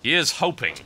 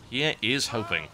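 First: Said in the usual way. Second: "is" spelled out in full, lower and softer phrase; stress on "is". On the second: Real, not acted. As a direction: separate and lean on "is".

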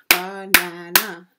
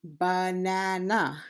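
First: Banana in three loud beats, ba-na-na; banana broken into three counted parts; syllable by syllable. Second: Said in the usual way. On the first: Shown as a demonstration. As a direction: punch out each syllable of banana. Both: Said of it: "we have three syllable word".

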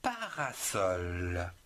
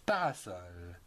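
First: Parasol, said slowly with each syllable drawn out; slow syllable-by-syllable model word. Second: Said in the usual way. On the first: Shown as a demonstration. Teacher modelling parasol slowly for children. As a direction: draw out parasol for the pupils. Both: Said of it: "vous avez le mot".

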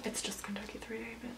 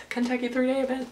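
First: Very soft, quick grumble; muttered aside. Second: Said in the usual way. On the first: Real, not acted. Rider correcting the event's new name, muttered aside. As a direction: mutter it far under your breath.

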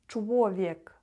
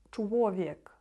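First: Чвовєк with first sound soft, second ł like w; soft l then ł. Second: Чвовєк, ł w-like, first sound soft; soft l then ł. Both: Shown as a demonstration. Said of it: "перша літера В, вона читається більш так м'яко".

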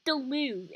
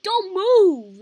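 First: Quiet repeat. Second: Commanding. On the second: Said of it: "like, don't move". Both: Retold or imitated.

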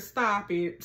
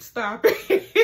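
First: Said in the usual way. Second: Real laughter through the words; laughing. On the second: Real, not acted. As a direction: crack up on the repeat. Repeats line, cracking up.

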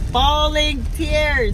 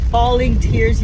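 First: "Bawling tears" drawn out slow and higher, leaning on "Bawling"; slow, high, emphatic "Bawling tears"; emphatic repeat. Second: Said in the usual way. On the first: Real, not acted.

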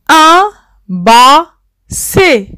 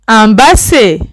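First: Un basset drawn out slowly, syllable by syllable; teacher slowly sounding out un basset for the class, slow and clear. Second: Said in the usual way. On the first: Shown as a demonstration. Spell out Un basset slowly.

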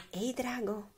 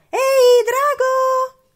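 First: Soft, hushed call; tender, quiet storybook call; very gentle whisper. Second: Very high, very loud shriek; piercing shout to wake a sleeper; full-force yell. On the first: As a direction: whisper it sweetly to a sleeper. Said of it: "sussurrò molto dolcemente". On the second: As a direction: scream it as loud as you can. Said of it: "strillò più forte che poteva". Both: A narrator's reading.

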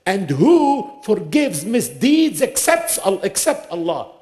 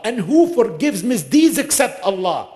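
First: "And who forgives misdeeds except, except Allah?" asked slowly, higher, rising on "misdeeds" then falling on "Allah"; slow rhetorical question. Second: Said in the usual way. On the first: Shown as a demonstration. Preacher poses God's question to the listeners, rising on "misdeeds" and falling on "Allah". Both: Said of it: "Allah says it as a question".

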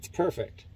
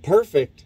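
First: Said in the usual way. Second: Higher, louder disbelieving echo of Perfect?; incredulous echo. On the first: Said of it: "he's all". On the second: Retold or imitated. Narrator echoing his friend's word, higher and louder in disbelief. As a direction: fire Perfect? back in disbelief. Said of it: "And I'm like".

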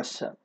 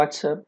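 First: "what's up" as wassup, t dropped; casual pronunciation. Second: "what's up" with the t sounded; full pronunciation. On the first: Teacher gives the American option, "what's up" as wassup. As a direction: run "what's up" together without the t. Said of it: "الأمريكان أحيانًا بيقولوها". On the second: Teacher says either is fine, "what's up" with a clear t. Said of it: "مفيهاش أي مشكلة إن أنا قلتها". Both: Shown as a demonstration.

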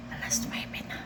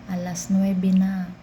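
First: Breathy whisper to herself; whispered "Alas nuwebe na". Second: Said in the usual way. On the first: Real, not acted. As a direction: whisper the hour, exhausted. Whispered time check.

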